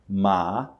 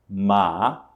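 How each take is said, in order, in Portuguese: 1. O tom sobe do médio para o alto. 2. O tom sobe do médio para o alto.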